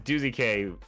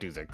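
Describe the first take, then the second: First: The name ends with a separate letter K. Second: The name ends in one short syllable 'zik'. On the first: The speaker calls it right. "It is Doozy K" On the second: The speaker calls it wrong. "not uh not Doozik"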